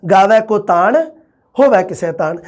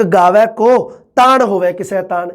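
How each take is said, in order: First: ਗਾਵੈ ਕੋ ਤਾਣ rising, then a clear break; pause after ਤਾਣ. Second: Slow line, held and broken after ਕੋ; pause after ਕੋ. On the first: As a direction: stop on the first ਤਾਣ before ਹੋਵੇ. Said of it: "ਇੱਕ ਵਾਰੀ ਤਾਣ 'ਤੇ ਵਿਸ਼ਰਾਮ". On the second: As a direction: stop on ਕੋ, then run ਤਾਣ into the rest. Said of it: "ਇੱਕ ਵਾਰੀ ਤਾਂ ਕੋ 'ਤੇ ਵਿਸ਼ਰਾਮ ਲੱਗਦਾ". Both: Shown as a demonstration.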